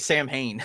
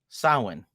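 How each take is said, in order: First: The name is said as 'Sam Hain'. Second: The name is not said as 'Sam Hain'. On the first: The speaker calls it wrong. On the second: The speaker calls it right.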